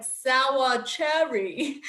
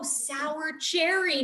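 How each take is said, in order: First: Slow, drawn-out imitation of a German accent; thick German accent. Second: Put-on "sour cherry" said slowly as two clear words in her own accent; clearly enunciated correction. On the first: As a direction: imitate a German man saying it very slowly. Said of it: "he had this very thick German accent". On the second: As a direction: stretch "sour cherry" in dawning realization, higher-pitched. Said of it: "And I'm like, "Oh, sour cherry, not solitary".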